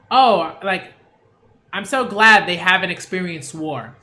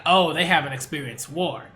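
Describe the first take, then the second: First: Louder, gushing relief as a mock contrast take; imitating a relieved, happy way to say it; glad relieved reading. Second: Level, loaded with meaning, the veiled-threat version; imitating the character's ominous way of saying it; ominous reading. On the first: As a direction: say it like you're truly glad they were spared. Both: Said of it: "But he didn't say it like that".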